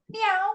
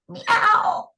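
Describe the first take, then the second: First: The voice is clear, not creaky. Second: The voice is creaky.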